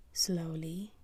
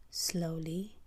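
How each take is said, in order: Both takes have the same delivery.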